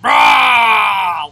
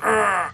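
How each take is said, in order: First: Huge, long monster roar; Sully. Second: Short grumpy growl; imitated old-person growl. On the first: Acted. Man out-growling an old person, giant monster roar. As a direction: roar back at full blast. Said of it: "Like fucking Sully from Monsters". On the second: Player imitating an old person growling at him, short mock growl. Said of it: "Like, the old person".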